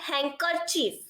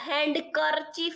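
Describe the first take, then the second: First: The d sound is left out. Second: The d sound is clearly pronounced. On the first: The speaker calls it right. "પણ હેન્કરચીફ" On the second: The speaker calls it wrong. "હેન્ડ કરચીફ નથી બોલતા આપણે"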